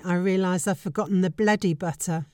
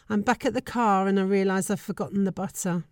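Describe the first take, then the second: First: Bloody said as "bleddy", the vowel turned to a short e; a Cornish "bleddy" in place of bloody. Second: Said in the usual way. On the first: Shown as a demonstration. Swearing about the forgotten butter in Cornish. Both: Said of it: "Bloody is an extremely Cornish way of pronouncing bloody".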